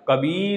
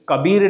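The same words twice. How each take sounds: First: The second vowel is drawn out long. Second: The second vowel is clipped short. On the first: The speaker calls it right. "उसमें बड़ी लगता है" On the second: The speaker calls it wrong. "कबीर नहीं होता है"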